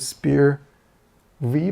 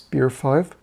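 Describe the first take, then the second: First: The ending is said as the letter V. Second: The ending is said as the number five. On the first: This is the speaker's habitual way of saying it. "I always say Spear V" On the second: This is the way the makers intend it. "they want it pronounced Spear five"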